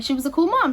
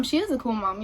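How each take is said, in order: First: Said in the usual way. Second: IS stressed as a correction. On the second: Real, not acted. Daughter correcting herself about her cool mom, stressing IS. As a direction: lean on "is" to correct the tense.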